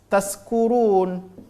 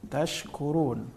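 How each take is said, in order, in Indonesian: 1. Konsonan sebelum -kurun adalah bunyi s. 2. Konsonan sebelum -kurun adalah bunyi sh. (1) "sebahagian dari kita membacanya menjadi tas taskurun" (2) "makhraj dari huruf shin ini adalah wastul lisan"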